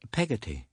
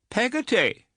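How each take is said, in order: First: Said in the usual way. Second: Peggotty said high and scandalised, falling; indignant repeat. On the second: A narrator's reading. Aunt echoing the servant's name, high and indignant. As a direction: echo the name in disbelief. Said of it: "repeated Miss Betsy with some indignation".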